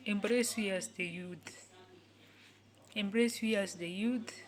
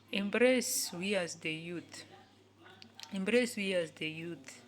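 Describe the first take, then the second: No difference in how they are said.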